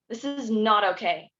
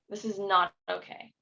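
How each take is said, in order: First: It is said with strong intensity. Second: It is said with mild intensity.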